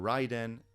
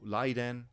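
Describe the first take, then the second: First: The name begins with an R sound. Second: The name begins with an L-like sound.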